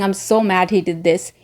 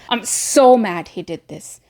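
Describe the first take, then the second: First: The loudness stays the same throughout. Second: The loudness rises and falls across the words. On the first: The speaker calls it wrong. "Instead of saying" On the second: The speaker calls it right. "So you go forward and backward with your voice"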